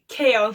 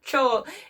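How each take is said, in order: First: The name begins with a K sound. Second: The name begins with a CH sound. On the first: The speaker calls it right. "It's literally Kale" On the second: The speaker calls it wrong.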